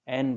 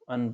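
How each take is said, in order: First: The vowel is full and stressed. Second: The vowel is short and reduced. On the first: The word is important here. "एन पढ़ेंगे" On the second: The word carries no importance here. "एन को अन पढ़ेंगे"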